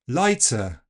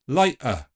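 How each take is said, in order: First: The t is released with a hissing ts sound. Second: The t is replaced by a catch in the throat. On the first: It sounds like southern English. "Affrication will give us ts" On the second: It sounds a little Cockney. "let's replace it with a glottal stop"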